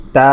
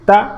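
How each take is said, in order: First: Stretched "তা", steady long aa; drawn-out "তা". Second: Said in the usual way. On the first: Shown as a demonstration. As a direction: hold the long vowel of "তা". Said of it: "আমরা একটু টেনে পড়ব". (টেনে পড়া "তা") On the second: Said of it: "একইভাবে যদি আমরা পড়ি এটা".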